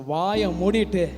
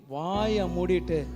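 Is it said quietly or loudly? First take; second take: loudly; quietly. First: It is said loudly and strongly. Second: It is said quietly and weakly.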